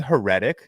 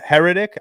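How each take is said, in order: First: Heretic stressed on the second syllable, huh-RET-ic; mispronunciation. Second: Heretic stressed on the first syllable, HER-etic; correct pronunciation. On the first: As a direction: say Heretic as her-ET-ik. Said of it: "Did he just pronounce that wrong". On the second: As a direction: say Heretic as HER-uh-tik, rising like a check. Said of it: "It is Heretic". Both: Shown as a demonstration.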